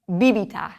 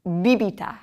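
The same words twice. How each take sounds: First: Bibita, stress on the first syllable; BEE-bee-tah; teacher modeling bibita; model word. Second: Bibita again, first syllable stressed; BEE-bee-tah repeated; repeat for class. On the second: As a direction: repetition of bibita. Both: Shown as a demonstration. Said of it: "teacher models the word".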